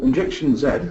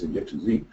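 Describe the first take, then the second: First: The letter Z is said as zed. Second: The letter Z is said as zee.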